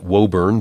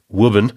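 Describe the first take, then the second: First: Woburn is said with a non-local pronunciation. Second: Woburn is said with the local New England pronunciation. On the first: The speaker calls it wrong. "I was pronouncing it Woburn" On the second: The speaker calls it right. "in New England parlance, it's Woburn"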